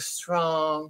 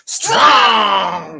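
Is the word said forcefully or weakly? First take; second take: weakly; forcefully. First: The word is said weakly, without force. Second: The word is said loudly, with force. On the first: The speaker calls it wrong. "You can't just be like" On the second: The speaker calls it right. "But you have to say it with the voice. ... You have to go"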